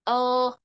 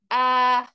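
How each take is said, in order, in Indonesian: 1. Vokalnya tertutup, suaranya tertahan di dalam mulut. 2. Vokalnya terbuka, mulut dibuka lebar. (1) "suaranya tidak boleh mendep di dalam, nggak boleh" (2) "dibuka rongga mulutnya"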